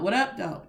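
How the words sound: Said in a relaxed, casual, native-sounding tone. The speaker calls it right. "in a normal sounding tone"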